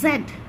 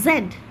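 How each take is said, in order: No difference in how they are said.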